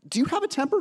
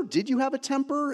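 First: Said in the usual way. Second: "you" lifted and stressed; corrected question with "you" stressed. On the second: Real, not acted. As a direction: lean on "you" to ask about the past.

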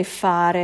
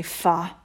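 First: "fare" with both syllables; full standard form. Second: "fa" cut after the first syllable; Roman clipped verb. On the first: Guest contrasting standard with Roman dialect, full "fare". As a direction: say "fare" complete, Italian FAH-reh. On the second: Guest mimicking disliked Roman dialect, cut-off "fa". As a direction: chop the ending off, just "fa". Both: Shown as a demonstration. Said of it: "cut off the end of the verb".

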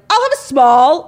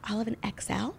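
First: High, booming announcement; loud and proud. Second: Soft, discreet murmur; kinda quiet. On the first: Shopper happily announcing a small size, shouted loudly. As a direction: belt it out for the whole store. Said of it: "I'm not screaming it". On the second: Shopper discreetly ordering a larger size, said quietly. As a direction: keep it down so nobody overhears. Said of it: "it was like, kinda quiet". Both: Shown as a demonstration.

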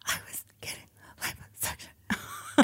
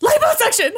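First: Very soft, unvoiced secret-telling; hushed confession. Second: Loud, high-pitched blurt; exasperated outburst. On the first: Brooke admitting it to a puzzled Elle, whispering. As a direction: whisper it as if nobody else may hear. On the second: Acted. Brooke finally making Elle hear, loud and high. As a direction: blurt it out loud after failing to be heard.

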